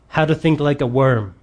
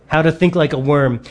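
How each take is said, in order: The two takes are said the same way.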